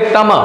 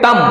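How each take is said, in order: First: The word ends with a full ma vowel sound. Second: The word ends in a bare m consonant. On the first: "जब यदि हलंत नहीं है तब इसका उच्चारण करेंगे तम" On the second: "जब हलंत है तो हम इसका उच्चारण करेंगे तम"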